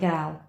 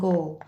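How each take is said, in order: First: The vowel rhymes with 'shall'. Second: The vowel rhymes with 'shawl'. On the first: "or shall and gal" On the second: "shawl and gall"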